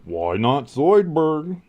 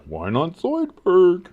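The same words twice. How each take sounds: First: Slow, higher put-on cartoon voice; quoting Futurama's Zoidberg; Zoidberg impression. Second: Slow, higher cartoon voice lightly done; a hint of Zoidberg; Zoidberg impression. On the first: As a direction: drag it out like the cartoon lobster doctor. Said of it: "I love Zoidberg". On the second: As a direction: drawl it like the cartoon crab. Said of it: "giving a little Zoidberg".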